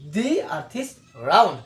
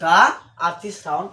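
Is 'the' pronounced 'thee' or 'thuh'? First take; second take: thee; thuh. First: 'The' is said with a long 'ee' vowel. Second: 'The' is said with a short 'uh' vowel. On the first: The speaker calls it right. "এইটো হ'ল the earth is round, কাৰণ কি এইটো ভাৱলেৰে আৰম্ভ হৈছে" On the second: The speaker calls it wrong. "এইটো আচলতে the earth is round নহয়"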